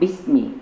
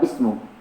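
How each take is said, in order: First: The word ends with an i vowel. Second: The word ends with a u vowel. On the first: The speaker calls it right. "maka harokatnya bismi" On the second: The speaker calls it wrong. "bukan bismu"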